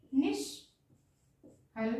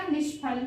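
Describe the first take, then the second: First: निष्फल drawn out very slowly and softly, every sound clear; slow syllable-by-syllable model word. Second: Said in the usual way. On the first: Shown as a demonstration. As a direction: stretch निष्फल out slowly for the class to copy.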